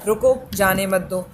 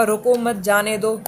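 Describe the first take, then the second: First: Slow "रुको", a short pause, then "जाने मत दो"; comma pause demo. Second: "रुको मत" then a short pause, then "जाने दो"; comma pause demo. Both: Shown as a demonstration. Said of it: "तो उन विराम चिन्हों का भी आपको उचित प्रयोग करना है".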